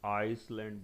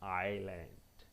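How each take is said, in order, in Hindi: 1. "l" से पहले "s" ध्वनि बोली जाती है। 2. "l" से पहले कोई "s" ध्वनि नहीं बोली जाती। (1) "sorry it is wrong" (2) "here एस is silent"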